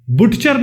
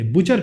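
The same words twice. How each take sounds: First: बुटचर with the t sounded; wrong pronunciation. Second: बुचर with no t, the right way; silent t. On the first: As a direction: say बुटचर with a clear t before the ch. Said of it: "बुटचर नहीं कहते हम". (बुटचर, टी बोलते हुए) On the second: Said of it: "बुचर कहते हैं". (बुचर, बिना टी के) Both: Shown as a demonstration.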